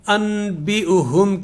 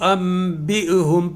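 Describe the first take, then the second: First: A plain n sound comes before the b. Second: A nasal m sound comes before the b. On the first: This is how the word is written. The speaker calls it wrong. "के बजाय" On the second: This is how the word is recited. The speaker calls it right. "इसको अम बी हम पढ़ा जाएगा"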